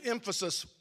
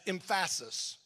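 First: The stress falls on its usual syllable. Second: The stress falls on an unexpected syllable. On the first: "if I pronounce the word emphasis" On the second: "as emphasis"

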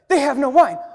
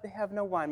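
First: It is said in an alarmed, urgent way. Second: It is said in a casual, offhand way.

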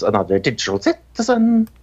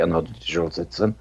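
First: The name is said very loudly and emphatically. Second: The name is said at a normal, soft volume. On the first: The speaker calls it right. "You have to say it very loudly" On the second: The speaker calls it wrong. "if you say Another Digital Citizen, that's not our name"

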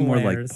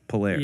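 First: It ends with a sounded s. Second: It ends without any s sound. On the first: The speaker calls it wrong. "Not Polaris" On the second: The speaker calls it right. "But the S's are silent"

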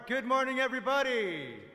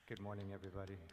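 First: It is said loudly, with high energy. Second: It is said flatly, with low energy.

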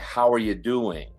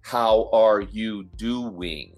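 First: The words are run together quickly. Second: Every word is said fully and slowly.

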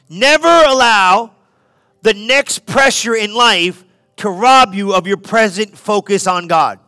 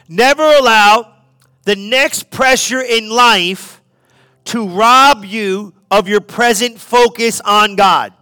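First: It is said at normal speed. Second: It is said slowly and deliberately.

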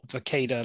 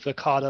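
First: The middle vowel sounds like in tomato. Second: The middle vowel sounds like in avocado. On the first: The speaker calls it wrong. "not Verkada like tomato" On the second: The speaker calls it right. "like avocado"

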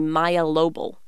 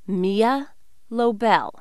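First: The first name starts with an 'eye' vowel. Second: The first name starts with an 'ee' vowel. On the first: The speaker calls it wrong. "I can never let it go when people call me" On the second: The speaker calls it right.

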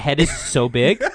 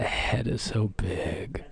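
First: The words are said in a normal voice. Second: The words are whispered very quietly.

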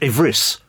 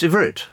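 First: The word ends with an s sound. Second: The word ends with a t sound. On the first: The speaker calls it wrong. "it's not Ivris" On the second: The speaker calls it right. "it's Ivrit"

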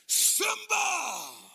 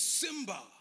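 First: It imitates the father's booming voice. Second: It is said in a plain, ordinary voice.

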